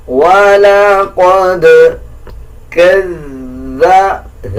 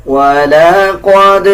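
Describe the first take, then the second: First: وَلَقَدْ bounced, then كَذَّ pressed hard on the doubled letter; qalqalah and shaddah. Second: وَلَقَدْ with an echoing bounce on the final dal; qalqalah. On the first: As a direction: hit the doubled dhal firmly. (قلقلہ اور شد) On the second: (قلقلہ کے ساتھ) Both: Shown as a demonstration. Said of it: "قلقلہ کیا جائے گا".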